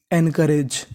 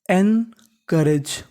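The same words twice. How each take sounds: First: Said in the usual way. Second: encourage very slow, split as एन, then करेज; धीरे, टुकड़ों में उच्चारण. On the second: Shown as a demonstration. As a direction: break encourage into two parts with a clear pause after एन. (Encourage को बहुत धीरे, एन और करेज में तोड़कर बोलें) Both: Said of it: "तो मीनिंग बनी".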